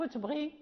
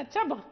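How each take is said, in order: First: تبغي ending in a long ee; wrong stopping form. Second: تبغ cut off on a final gh, no i vowel; stopping form. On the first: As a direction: say تبغي with the final ya sounded. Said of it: "لا نقف تبغي". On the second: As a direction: say تبغ ending right on the ghayn. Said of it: "إذا وقفنا". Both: Shown as a demonstration.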